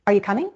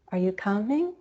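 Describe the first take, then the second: First: Brisk question, pitch stepping up on "coming"; stepping rise. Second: Softer, drawn-out rise on "coming"; slower stepping rise. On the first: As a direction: step quickly up through "coming". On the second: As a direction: stretch "coming" and let it climb gradually. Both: Shown as a demonstration. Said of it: "to step up even higher in pitch".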